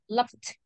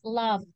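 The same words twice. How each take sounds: First: The ending is a voiceless t sound. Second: The ending is a voiced d sound. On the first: The speaker calls it wrong. "You don't say loved. No, because it's not a voiceless sound" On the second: The speaker calls it right. "The pronunciation is loved"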